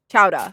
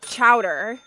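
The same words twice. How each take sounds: First: The R sound is dropped. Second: The R sound is clearly pronounced.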